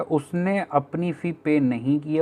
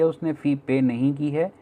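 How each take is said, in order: First: Slow rephrasing. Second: Said in the usual way. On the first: Shown as a demonstration. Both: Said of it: "या फिर कुछ ऐसा कहना चाहता है".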